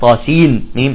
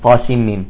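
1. يُنطق صوت النون واضحًا قبل الميم. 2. يندمج صوت النون تمامًا في الميم التي بعدها. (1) "لا نقول" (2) "إذن بالإدغام"

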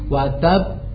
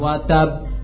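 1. Huruf b terakhir ditahan dan memantul dengan bunyi seperti 'a'. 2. Huruf b terakhir memantul dengan bunyi seperti 'e'. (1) "Jadi ditahan"

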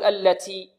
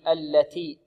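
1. التاء فيها نفس زائد مع صوت صفير مثل السين. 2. التاء فيها همس خفيف بدون أي صفير. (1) "بعض الطلاب يبالغون في الهمس، يقول التي تي تي" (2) "بل يأتي بالتاء مهموسة بدون رائحة السين. هكذا"

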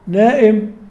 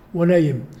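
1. الحرف الأوسط همزة. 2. الحرف الأوسط صوت ياء.

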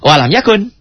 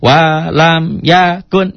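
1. Semua vokalnya dibaca pendek. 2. Sebagian vokalnya dibaca panjang. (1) "Gak ada yang panjang" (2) "Jadi jangan walam yakun"

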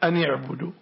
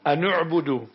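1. النون متبوعة بكسرة. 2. النون متبوعة بضمة. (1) "الكسر كما قرأتها" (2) "ضم النون كيف نلفظها؟"

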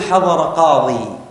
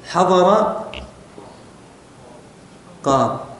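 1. تنتهي الكلمة الأخيرة بحركة 'ee' طويلة. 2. تنتهي الكلمة الأخيرة بدون حركة 'ee' طويلة في النهاية. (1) "بعض العرب كانت تقف بالياء" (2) "ومنهم من يقف بالحذف كما ترون"

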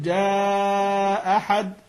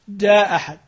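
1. الحركة التي قبل الهمزة المحذوفة تُمدّ مدًا طويلًا. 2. الحركة التي قبل الهمزة المحذوفة تبقى قصيرة. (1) "مع المد" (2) "والقصر"

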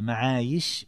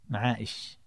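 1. الحرف الأوسط صوت ياء. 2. الحرف الأوسط همزة (توقف حنجري). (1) "معايش بالياء" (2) "من قرأ معائش بالهمزة"

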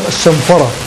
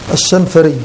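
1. ينتهي الاسم بصوت 'ah' طويل. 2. ينتهي الاسم بصوت 'ee' طويل. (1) "الصواب أن آخره ألف مقصورة" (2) "نطقته خطأ الشنفري، أي بياء في آخره"

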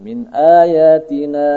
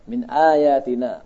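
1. Vokal terakhir dipanjangkan, sekitar empat harakat. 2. Vokal terakhir dibaca sebentar, sekitar dua harakat. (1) "Jadi kalau terus 4 atau 5" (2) "Berhenti dua harakat"

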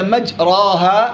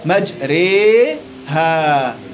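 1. الحركة الطويلة a مفتوحة خالصة. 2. الحركة الطويلة تميل بقوة نحو ee. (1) "بالفتح" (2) "إمالة كبرى"

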